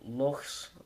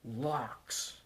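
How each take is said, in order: First: It ends in a rough breathy throat sound. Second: It ends in a hard k sound. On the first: The speaker calls it right. "in Scottish dialects, it's in normal words like loch" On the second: The speaker calls it wrong. "we call lochs locks, locks of all things"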